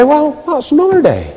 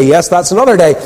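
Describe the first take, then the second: First: Higher-pitched imitation of a Ballymena man; Ballymena accent. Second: Said in the usual way. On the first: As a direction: mimic the Ballymena lilt, pitched up high. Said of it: "in his Ballymena accent".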